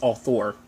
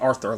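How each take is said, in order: First: The first vowel has no r sound after it. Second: The first vowel is followed by an r sound. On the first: The speaker calls it right. "but it's author" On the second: The speaker calls it wrong. "I always say Arthur, like the show Arthur"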